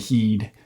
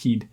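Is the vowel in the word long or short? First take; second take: long; short. First: The vowel is said long. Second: The vowel is said very short. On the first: "as opposed to" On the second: "a really short E in this context"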